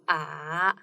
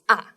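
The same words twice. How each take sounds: First: The pitch twists, dipping and turning. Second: The pitch starts high and falls. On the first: "the third tone is the a little bit twisted" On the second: "you start from the higher place and goes down"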